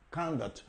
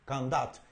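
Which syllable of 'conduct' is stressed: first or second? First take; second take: first; second. First: The stress is on the first syllable. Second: The stress is on the second syllable. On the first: It is a noun meaning behavior. "el estrés se cae en la primera sílaba" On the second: It is a verb. "el estrés cae en la segunda sílaba"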